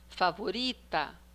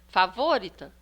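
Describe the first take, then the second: First: The stress is on the second-to-last syllable. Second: The stress is on the third-to-last syllable. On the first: The speaker calls it right. "depois a penúltima" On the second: The speaker calls it wrong. "agora nós vamos tentar a antepenúltima"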